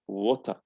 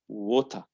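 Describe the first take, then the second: The two takes are said the same way.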